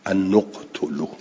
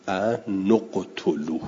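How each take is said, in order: First: «ان نقتلوا» repeated at normal pace with u on the nun; damma on nun. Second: «ان نقتلوا» with the nun taking u, said slowly; damma on nun, slow. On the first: (تکرار «ان نقتلوا» با ضمه) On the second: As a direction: slowly join nun to «قتلوا» with u. («ان نقتلوا» آهسته با ضمهٔ نون) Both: Shown as a demonstration. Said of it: "پس باید بخونیم".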